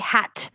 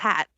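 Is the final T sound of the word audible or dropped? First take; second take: audible; dropped. First: The final T is clearly pronounced. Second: The final T is dropped. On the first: "I never say that fucking T at the end. Like I don't say hat" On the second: "I just hat"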